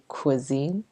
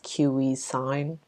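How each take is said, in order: First: The word is said with its standard pronunciation. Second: The word is sounded out following its spelling. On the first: The speaker calls it right. "but it's actually cuisine" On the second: The speaker calls it wrong. "the way it's spelled, people sometimes mispronounce it as cuisine"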